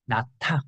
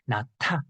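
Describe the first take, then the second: No difference in how they are said.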